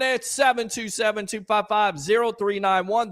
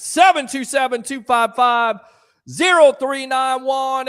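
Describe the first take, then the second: First: Said in the usual way. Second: Loud number call. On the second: Real, not acted. Host calling out the phone number to viewers.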